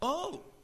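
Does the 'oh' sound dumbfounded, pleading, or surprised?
surprised. It sounds surprised.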